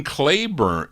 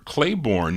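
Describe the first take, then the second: First: Claiborne with a weak "-bern" ending; reduced name ending. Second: Claiborne with a full "-born" ending; full name ending. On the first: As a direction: say Claiborne as CLAY-burn, second syllable reduced. Says the surname two ways. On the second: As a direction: say Claiborne as CLAY-born, second syllable clear. Repeats surname with other pronunciation. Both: Real, not acted.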